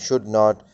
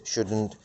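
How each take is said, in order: First: Not is said as a full separate word. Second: The vowel of not is dropped and joined.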